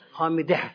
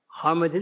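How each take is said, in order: First: The word ends with an audible h sound. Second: The word ends on a vowel without h. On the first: The speaker calls it right. "sonunda H var" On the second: The speaker calls it wrong. "Hamide değil"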